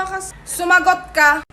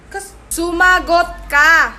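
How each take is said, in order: First: Slow, drawn-out scold; mother mimicking the child with a slow scold. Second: Loud, very slow warning; mother repeats the order louder and slower; slow loud scolding. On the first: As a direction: spell out the order slowly. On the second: Acted. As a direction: hammer each word of the order.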